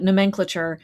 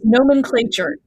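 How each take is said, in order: First: The word is pronounced in a British way. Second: The word is pronounced in a non-British way. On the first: This is how the speaker says it. "I was raised in British English and I call it" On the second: This is how others correct it. "people say, no, it's nomenclature"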